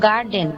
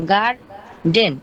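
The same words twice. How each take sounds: First: Said in the usual way. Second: garden slowly broken in two, গার... ডেন; split into syllables. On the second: Shown as a demonstration. Student showing the syllables in a word, garden split slowly in two. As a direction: pause clearly between গার and ডেন in garden. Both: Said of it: "দুইটার মাঝখানে একটা অক্ষর আছে".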